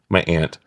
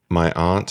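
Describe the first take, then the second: First: Aunt is pronounced in a relaxed, everyday way. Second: Aunt is pronounced in a careful, polished way. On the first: The speaker's natural way of saying it. "That's how I say it" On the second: Adjusted for being on camera. "I never say aunt that way. I only said it that way because we're on camera"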